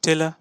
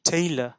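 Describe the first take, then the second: First: The first vowel is a plain short 'e'. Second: The first vowel is an 'ay' glide. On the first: The speaker calls it wrong. "টেলার না কি" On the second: The speaker calls it right. "টেইলার টেইলার"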